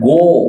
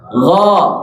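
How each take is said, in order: First: The vowel is said with pursed, rounded lips. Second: The vowel is said with a wide open mouth. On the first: The speaker calls it wrong. "Jangan go. Jangan monyong ya" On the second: The speaker calls it right.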